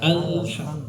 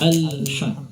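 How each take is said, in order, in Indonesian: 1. Bunyi L mengalir sebentar sebelum berakhir. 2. Bunyi L mengalir sebentar sebelum berakhir.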